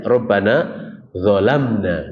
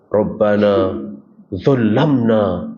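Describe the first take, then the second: First: Dzolamna with a single short m, no tasydid; correct reading. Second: Dzolamna with a doubled m, dzolamma held on the m; imitating the wrong reading dzolamna with tasydid; misread prayer. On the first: Shown as a demonstration. Preacher showing the right reading, dzolamna with a single m. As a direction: say dzolamna cleanly, no doubled consonant. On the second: Motivator's misread prayer, dzolamna with a doubled m. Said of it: "nggak pakai tasydid gitu".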